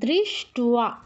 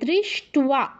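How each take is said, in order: First: A v sound follows the t. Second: A v sound follows the t.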